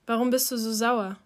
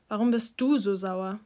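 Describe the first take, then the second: First: \"Warum\" hit hardest, question falling at the end; annoyed question, weight on \"Warum\"; stress on warum. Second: \"du\" stressed, the question rising at the end; echoed question, weight shifted to \"du\". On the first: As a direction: lean on \"Warum\" like a real demand. Dante asks why Ari is angry. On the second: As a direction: turn it back on him by pushing \"du\". Ari throws the question back. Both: A narrator's reading.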